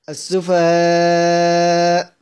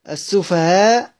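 First: The final long vowel is held very long. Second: The final long vowel is held briefly. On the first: "ومد" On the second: "كسر"

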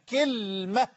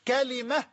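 First: First vowel is i, the l has no vowel. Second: Open first vowel, then an i after the l. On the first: It is the form used by the Tamim tribe. "بكسر الكاف وتسكين اللام" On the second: It is the form used by the people of the Hijaz. "بفتح الكاف وكسر اللام"

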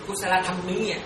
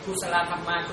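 First: The last word sounds like 'tham mía'. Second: The last word sounds like 'thăm ma'. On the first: "qua bên phía Campuchia họ đọc là gì?" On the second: "Còn ở bên mình đọc là thăm ma"

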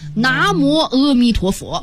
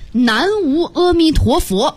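First: The opening syllables sound like na mo. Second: The opening syllables sound like nan wu. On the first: This is how the phrase is read aloud. "要念出来" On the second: This is how the characters read as written. "庙里那墙上老写着一句话"

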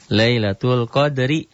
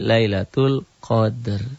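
First: The last word ends with a short i vowel. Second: The last word ends on a lightly sounded r. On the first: The recitation continues without stopping. "Lailatul Qadri dihentikan" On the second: The recitation stops at this word. "jadi Lailatul Qadr"

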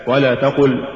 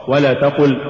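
The two takes are said the same way.

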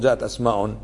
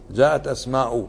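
First: The final word ends with an added -n sound. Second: The final word ends without an added -n sound. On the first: The speaker calls it wrong. "ما تقول" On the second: The speaker calls it right. "اسم أسماء ما تنونها"

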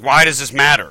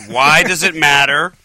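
First: It is said at a normal speed. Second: It is said slowly and drawn out.

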